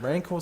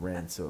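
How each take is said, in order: First: The last syllable sounds like 'cor'. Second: The last syllable sounds like 'cer'. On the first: The speaker calls it right. "Rancor sounds heaps better" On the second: The speaker calls it wrong. "I used to call it the Rancer when I was a kid"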